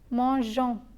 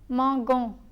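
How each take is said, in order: First: The g is a soft zh sound. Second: The g is a hard sound like in go. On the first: "To retain the j sound, one must add an E after the letter G" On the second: "M-A-N-G-O-N-S is pronounced as mangon"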